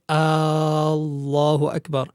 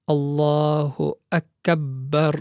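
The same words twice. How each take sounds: First: The opening vowel of Allah is stretched long. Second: The b consonant is held and doubled. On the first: "one should not extend the hamza of al-jalala" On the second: "one should not have any shadda on the ba"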